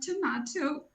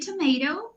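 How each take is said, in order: First: It is said with a British accent. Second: It is said without a British accent. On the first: "Like I'm so British" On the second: "I say tomato"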